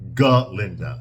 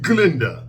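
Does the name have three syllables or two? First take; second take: three; two. First: The name is said with three syllables. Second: The name is said with two syllables. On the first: The speaker calls it right. "that's her name, not Glinda" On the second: The speaker calls it wrong. "says Glinda like that"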